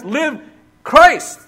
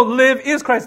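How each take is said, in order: First: "Live", a short pause, then "Christ" high and loud; verbless emphatic reading. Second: Said in the usual way. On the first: Shown as a demonstration. Preacher shows the verse without its verb, emphatic, "Live... CHRIST" in two beats. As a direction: punch "Christ" alone after a pause following "Live". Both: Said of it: "There's no "live is Christ".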